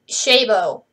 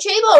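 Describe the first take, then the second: First: The name begins with a sh sound. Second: The name begins with a ch sound. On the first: The speaker calls it right. "this offer's name is actually pronounced Shaban" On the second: The speaker calls it wrong. "I have been pronouncing Chabo wrong"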